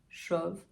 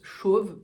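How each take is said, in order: First: The vowel is said quite open. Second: The vowel is said more closed. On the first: This is the speaker's own way of saying it. "Pour moi, il est assez ouvert" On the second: Other people may say it this way. "Peut-être que pour d'autres, ce sera plus chauve"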